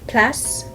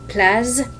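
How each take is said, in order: First: The word ends with a clear S sound. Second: The word does not end with an S sound. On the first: The speaker calls it right. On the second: The speaker calls it wrong.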